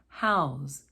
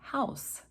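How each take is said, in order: First: The word ends with a buzzing Z sound. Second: The word ends with a hissing S sound. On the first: It is used as a verb. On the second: It is used as a noun.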